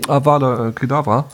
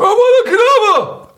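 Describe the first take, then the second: First: It is said plainly and calmly. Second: It is shouted forcefully and menacingly.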